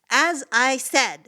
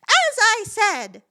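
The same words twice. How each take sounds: First: It is said in the speaker's ordinary voice. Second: It is said in a mocking put-on voice. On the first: "I sort of had to move into that voice" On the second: "bring it in the beginning and start from the beginning with it"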